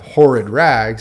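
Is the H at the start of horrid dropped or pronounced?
pronounced. The H at the start is pronounced.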